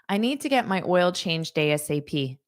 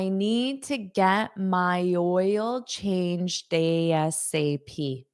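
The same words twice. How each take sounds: First: The sentence is said at a faster pace. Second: The sentence is said at a slower pace.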